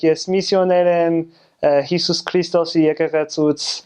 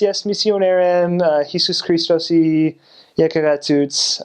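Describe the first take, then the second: First: It is said with a more native Armenian accent. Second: It is said with a heavy American accent.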